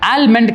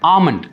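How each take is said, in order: First: The L sound is clearly pronounced. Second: The L sound is left out entirely. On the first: The speaker calls it wrong. "ஆல்மண்ட் கிடையாது" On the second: The speaker calls it right. "அந்த எல் வந்துட்டு நம்ம ப்ரொனவுன்ஸே பண்ண மாட்டோம்"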